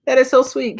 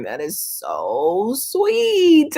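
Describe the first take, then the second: First: Said in the usual way. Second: Drawn-out gushing. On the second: Real, not acted. Psychic gushing to a client about her partner, slow and doting. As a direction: stretch "That is so sweet." out, slow and doting.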